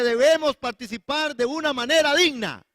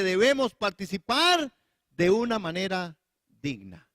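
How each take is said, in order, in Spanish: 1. La frase se dice rápido. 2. La frase se dice despacio. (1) "lo dije muy rápido" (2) "voy de nuevo"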